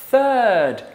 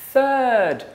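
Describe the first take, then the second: Both takes have the same delivery.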